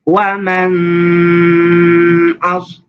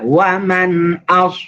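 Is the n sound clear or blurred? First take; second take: blurred; clear. First: The n sound is blurred and not distinct. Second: The n sound is pronounced clearly and distinctly. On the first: The speaker calls it wrong. "itu disamarkan namanya" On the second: The speaker calls it right. "jelas sekali"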